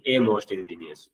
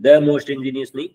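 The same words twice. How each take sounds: First: "a most ingenious" said slowly and softly, with "a" lightly stressed as the correct form. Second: "the most ingenious" with "the" stressed and rising, marked as the wrong form. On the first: Teacher to students, softly giving the correct form. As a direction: settle gently on "a" as the right answer. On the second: Teacher to students, stressing the wrong article. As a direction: hit "the" hard like a mistake to avoid. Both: Shown as a demonstration.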